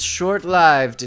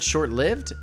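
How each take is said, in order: First: The 'i' in lived sounds like 'strive'. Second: The 'i' in lived sounds like 'give'. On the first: The speaker calls it right. "it should have a long I as in strive" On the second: The speaker calls it wrong. "commonly mispronounced with a short I as in give"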